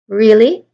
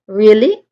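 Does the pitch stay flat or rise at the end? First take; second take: rising; rising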